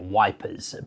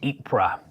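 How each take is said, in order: First: It begins with a W sound, like wipers. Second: It begins without a W, ending in soft R. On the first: This is the old soldiers' name for the town. "the local British Tommies there in that area often would have called it Wipers" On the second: This is a widely recognised modern pronunciation. "Kind of Yp and then like R on the end"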